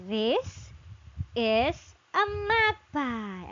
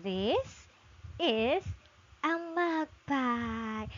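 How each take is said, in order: First: Slow model sentence. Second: Slow model reread. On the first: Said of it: "so you can say". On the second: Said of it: "let's read again". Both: Shown as a demonstration.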